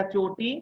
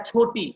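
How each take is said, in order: First: चोटी with a plain ch, no puff of air; unaspirated ch. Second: छोटी with a puff of air on the chh; aspirated chh. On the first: Teacher contrasting the braid word with small, unaspirated ch. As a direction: start चोटी on a dry, unaspirated च. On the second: Teacher contrasting the word for small with braid, aspirated chh. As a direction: start छोटी on a breath-released छ. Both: Shown as a demonstration. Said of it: "कहाँ पे कैसे pronounce करना है".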